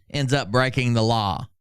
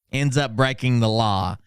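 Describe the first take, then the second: No difference in how they are said.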